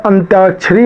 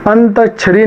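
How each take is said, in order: First: अंत्याक्षरी said as anty-aakshari, y glide after t; the right form अंत्याक्षरी with a clear ty; correct pronunciation. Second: अंताक्षरी said as ant-aksh-ari, plain t with no y; the mistaken form अंताक्षरी with a bare t sound; wrong pronunciation. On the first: Teacher gives students the correct अंत्याक्षरी with a ty glide. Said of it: "अंत्याक्षरी होता है". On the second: Teacher shows students the wrong अंताक्षरी, no y after t. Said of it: "अंताक्षरी नहीं होता". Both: Shown as a demonstration.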